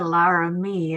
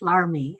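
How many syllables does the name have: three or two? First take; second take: three; two. First: The name is said with three syllables. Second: The name is said with two syllables. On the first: The speaker calls it wrong. "is not Director Laramie" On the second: The speaker calls it right. "it's Larmy. L A R M I E is how we pronounce it"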